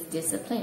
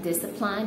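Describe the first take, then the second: First: The last syllable sounds like 'lin'. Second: The last syllable sounds like 'line'. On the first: The speaker calls it right. "my friend checked it on the dictionary and it says discipline" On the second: The speaker calls it wrong. "line was read L I N E was read line, so discipline"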